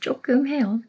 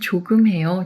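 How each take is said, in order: First: It is said in a cute, playful way. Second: It is said in a plain, neutral way.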